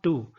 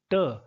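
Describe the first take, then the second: First: TO with a full oo, like "too"; full-vowel TO. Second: TO reduced to a short "tuh"; weak-form TO. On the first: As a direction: give TO its strong form, "too". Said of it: "not to". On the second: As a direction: say TO with a neutral uh vowel. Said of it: "it is pronounced to, not to". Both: Shown as a demonstration.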